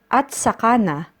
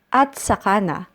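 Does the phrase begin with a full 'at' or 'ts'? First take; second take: at; at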